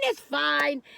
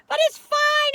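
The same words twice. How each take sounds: First: Said in the usual way. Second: Sing-song dismissal. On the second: Real, not acted. Shrugging off mediocre fish.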